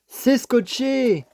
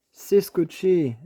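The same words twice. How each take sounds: First: Drawn-out, high dismayed cry; dismayed surprise. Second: Said in the usual way. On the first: Real, not acted. To viewers, finding the box taped, slow dismayed exclamation. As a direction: stretch it out, caught off guard. Finds the package taped shut.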